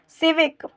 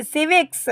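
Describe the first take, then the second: First: "सिविक" ending cleanly on k, no s; corrected pronunciation. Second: "सिविक्स" with an added final s sound; mistaken plural reading. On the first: Teacher correcting for students, "सिविक" ending in k without s. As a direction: say "सिविक", stopping at the k sound. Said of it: "यहाँ पे सिर्फ सिविक बोलेंगे इसे". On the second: Teacher reading the word for students, wrongly ending "सिविक्स" in ks. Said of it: "वैसे तो सिविक्स नहीं है". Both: Shown as a demonstration.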